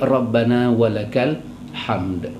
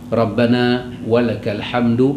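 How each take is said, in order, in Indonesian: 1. Kata terakhir berakhir dengan konsonan mati. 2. Kata terakhir berakhir dengan harakat pendek. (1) "lebih cantik" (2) "kita menghidupkan baris di belakang, boleh, tak ada masalah"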